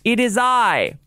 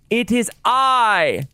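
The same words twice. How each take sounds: First: It is mumbled quietly and unclearly. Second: It is said loudly with lots of energy.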